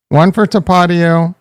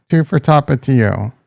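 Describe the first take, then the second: First: Tapatio as tuh-PAH-dee-oh; first pronunciation option. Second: Tapatio as TAH-pah-TEE-oh; second pronunciation option. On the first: Streamer asking Jason to choose, Tapatio as tuh-PAH-dee-oh. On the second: Streamer asking Jason to choose, Tapatio as TAH-pah-TEE-oh. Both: Shown as a demonstration. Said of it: "how do you say it".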